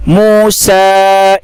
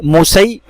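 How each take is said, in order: First: मूसा held very long, ending on आ; Quranic recitation. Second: मूसई said plainly, ending in ई; quick flat मूसई as the error; wrong reading. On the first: Teacher showing the right reading, slow recitation. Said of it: "मूसा पढ़ेंगे अलिफ के साथ". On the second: Teacher showing the wrong reading, plain. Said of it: "मूसई ऐसे नहीं पढ़ेंगे". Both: Shown as a demonstration.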